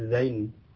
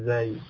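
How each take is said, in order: First: The name ends with an n sound. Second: The name ends without an n sound. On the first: The speaker calls it wrong. "yang dikenal di masyarakat kita mungkin dengan nun ya" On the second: The speaker calls it right.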